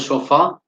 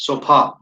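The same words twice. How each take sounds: First: The middle consonant is an f sound. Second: The middle consonant is a p sound. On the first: The speaker calls it right. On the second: The speaker calls it wrong.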